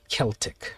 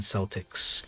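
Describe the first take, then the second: First: The word begins with a hard K sound. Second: The word begins with a soft S sound. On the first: "That's the correct pronunciation" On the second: "it is with the S pronunciation"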